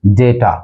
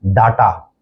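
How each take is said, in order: First: डेटा as DAY-taa; डेटा with "day", not "daa"; correct pronunciation. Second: डाटा as DAA-taa; डाटा with long "aa"; common mispronunciation. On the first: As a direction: say डेटा with an "ay" first vowel. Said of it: "correct pronunciation है". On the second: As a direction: open the first vowel of डाटा to "aa". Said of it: "आमतौर पर गलत". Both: Shown as a demonstration.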